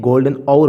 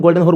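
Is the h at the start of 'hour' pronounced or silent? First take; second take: silent; pronounced. First: The h at the start of hour is silent. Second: The h at the start of hour is pronounced. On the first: The speaker calls it right. "लेकिन ये golden आवर होता है। एच silent होता है।" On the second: The speaker calls it wrong. "ये actually में तो हम गोल्डन हॉर बोल देते हैं"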